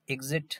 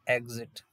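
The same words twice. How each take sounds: First: एग्जिट as "ig-zit", left rising; short-i first vowel. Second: एग्जिट as "eg-zit"; e first vowel. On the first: Teacher contrasting two sounds for students, एग्जिट as "ig-zit". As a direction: say एग्जिट with opening "i", tune lifting at the end. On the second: Teacher contrasting two sounds for students, एग्जिट as "eg-zit". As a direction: say एग्जिट with an opening "e" instead of "i". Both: Shown as a demonstration. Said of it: "दो, दो sound है".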